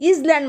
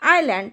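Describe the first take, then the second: First: An s or z sound is heard mid-word. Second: No s sound is heard mid-word. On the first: The speaker calls it wrong. "बरेच मुलं या ठिकाणी इजलँड वाचतात. हे इजलँड नसते" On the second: The speaker calls it right. "Here यस is silent"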